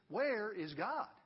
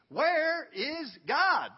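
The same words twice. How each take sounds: First: It is asked more directly and firmly. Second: It is asked very forcefully and loudly.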